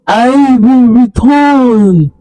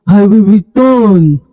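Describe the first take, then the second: First: Higher, very slow drawn-out threat; slower echo. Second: Slow, drawn-out spirit threat; fading echo. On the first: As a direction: let the final threat hang and stretch. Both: Acted. Spirit fades, repeated threat.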